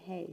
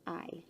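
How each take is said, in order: First: The word begins with an audible H sound. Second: The word begins with no H sound. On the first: The speaker calls it wrong. "We are not going to say hey" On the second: The speaker calls it right. "We say I"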